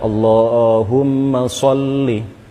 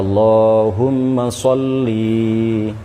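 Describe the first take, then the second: First: The final 'li' vowel is kept short. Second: The final 'li' vowel is dragged out long. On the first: The speaker calls it right. "wajib dibaca pendek" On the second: The speaker calls it wrong. "tidak boleh dibaca Allahumma sholli diseret"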